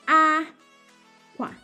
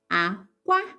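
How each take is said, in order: First: The first syllable is high, the second low. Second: The first syllable is low, the second high. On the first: "high tone and low tone" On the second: "this one is low tone and high tone"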